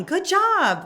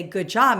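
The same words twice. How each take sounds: First: High, loud cheer of "Good job"; yelling from the sidelines. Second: Said in the usual way. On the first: Shown as a demonstration. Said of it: "I'm yelling". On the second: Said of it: "I'm trying to say".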